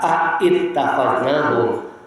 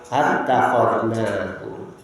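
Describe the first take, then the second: First: It starts with two separate vowel sounds. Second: It starts with a single vowel sound. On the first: The speaker calls it wrong. "maka tidak dibaca" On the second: The speaker calls it right. "hamzahnya dibuang"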